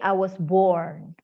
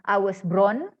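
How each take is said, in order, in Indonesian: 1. Bunyi r ada setelah vokal, seperti born. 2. Bunyi r ada sebelum vokal, seperti bron. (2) "Jadi bukan"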